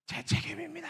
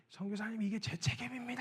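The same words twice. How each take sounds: First: High, anguished cry of the confession; retelling the pastor's anguished wail. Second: Sobbing confession. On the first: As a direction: wail it in guilt. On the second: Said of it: "엉엉 우시더니". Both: Retold or imitated.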